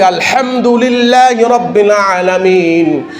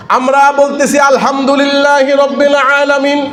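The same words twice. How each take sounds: First: আলহামদুলিল্লাহি রব্বিল আলামিন drawn out slowly with careful sounds; slow and precise আলহামদুলিল্লাহি রব্বিল আলামিন; correct recitation. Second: আলহামদুলিল্লাহি রব্বিল আলামিন said hastily, the way most people say it; the everyday rushed আলহামদুলিল্লাহি রব্বিল আলামিন; wrong recitation. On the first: Preacher teaches the proper আলহামদুলিল্লাহি রব্বিল আলামিন, slow. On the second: Preacher shows the congregation the careless আলহামদুলিল্লাহি রব্বিল আলামিন. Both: Shown as a demonstration. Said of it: "কিন্তু এখানে বলতে হবে".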